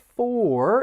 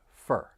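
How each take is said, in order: First: The vowel is a full, rounded 'or' sound. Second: The vowel is a soft, reduced 'ur' sound. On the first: "instead of for" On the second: "it's going to sound like fur. It's a much softer sound"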